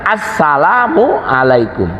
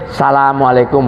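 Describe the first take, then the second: First: The opening article sound is clearly pronounced. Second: The opening article sound is dropped or blurred. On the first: The speaker calls it right. "salamnya harus benar" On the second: The speaker calls it wrong. "Nggak boleh"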